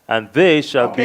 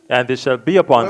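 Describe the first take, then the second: First: The word they is stressed. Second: No special stress falls on they.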